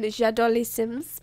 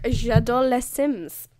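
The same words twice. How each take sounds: First: Slow French "J'adore les Sims" with a rising end; French phrase. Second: Slow, careful French "j'adore les Sims"; French phrase. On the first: Retold or imitated. Pitching a joke video, slow mock French. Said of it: "a whole Creator Sim video going". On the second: Shown as a demonstration. Showing off her French to viewers, slow proud French.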